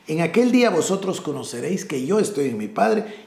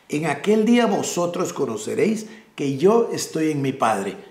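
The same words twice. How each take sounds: First: The sentence is read at a normal pace. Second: The sentence is read at a slower pace.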